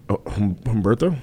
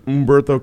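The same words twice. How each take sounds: First: The name begins with an audible H sound. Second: The name begins directly with the vowel sound. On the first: The speaker calls it wrong. "You don't pronounce the H" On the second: The speaker calls it right. "There you go"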